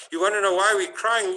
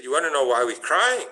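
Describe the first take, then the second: First: "why" punched high and loud, falling after; a louder demand with "why" stressed. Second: A pained question rising on "crying"; indignant retort. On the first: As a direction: hit "why" hard, then let the question drop. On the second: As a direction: stress on "crying", rising at the end. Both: Retold or imitated. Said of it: "So they said".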